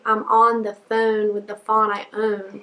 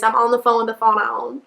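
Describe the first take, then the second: First: The vowels in phone and fawn sound different. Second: The vowels in phone and fawn sound the same.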